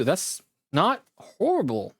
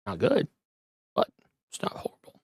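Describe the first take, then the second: First: Said in the usual way. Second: Fast whispered aside. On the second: Real, not acted. Streamer muttering a price verdict to viewers, whispered. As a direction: drop to a quick whisper, half to yourself.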